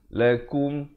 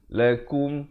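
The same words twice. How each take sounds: First: The vowel after k sounds like u. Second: The vowel after k sounds like u.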